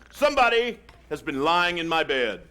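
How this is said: It is said in a big, deep bear voice.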